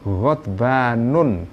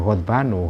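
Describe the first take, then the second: First: The word ends with an added n sound. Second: The word ends on a vowel without n. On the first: "Pakai tanwin ya" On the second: "seharusnya dibaca ghadbanu ghairu munsharif"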